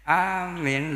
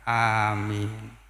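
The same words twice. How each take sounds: First: The first vowel is long, the second short. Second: Both vowels are held long. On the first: It means 'he is safe' or 'believe'. The speaker calls it wrong. "kalau hamzahnya panjang, mimnya pendek" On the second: It means 'grant our prayer'. The speaker calls it right. "Hamzahnya panjang, mimnya panjang"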